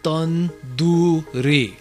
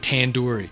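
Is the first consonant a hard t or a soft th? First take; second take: soft th; hard t. First: The first consonant is a soft, th-like t. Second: The first consonant is a hard English t. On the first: The speaker calls it right. "now say it with me" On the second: The speaker calls it wrong. "I don't want to hear anybody after hearing this say tandoori"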